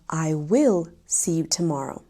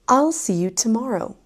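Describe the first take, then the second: First: I will is said as two full words. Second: I will is contracted to one syllable. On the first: "instead of" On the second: "if we're speaking quickly or casually"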